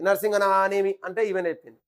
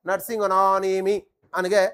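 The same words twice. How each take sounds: First: Said in the usual way. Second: Slow recital. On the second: Shown as a demonstration.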